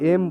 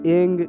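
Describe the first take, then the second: First: The word ends with a closed m sound. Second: The word ends with a hard ng sound. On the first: "ना वहाँ पर म लगाएंगे" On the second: "बहुत लोग ए को एंग एम बोलते हैं, ना वहाँ पर ग लगाएंगे"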